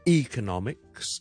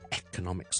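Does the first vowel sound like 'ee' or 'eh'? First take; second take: ee; eh. First: The first vowel sounds like the letter E. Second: The first vowel sounds like a short 'eh'. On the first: "E 定系A 咧？" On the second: "E 定系A 咧？"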